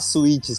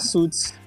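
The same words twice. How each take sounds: First: It is pronounced like the Portuguese word suíte. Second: It is pronounced like the English word suit. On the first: It refers to a hotel suite. The speaker calls it wrong. "Não precisa falar Suits" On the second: It refers to a business suit. The speaker calls it right. "pode falar Suits. Porque é um terno"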